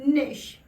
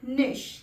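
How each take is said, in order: First: It ends with a short 'sh' sound. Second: It ends with a short 'sh' sound.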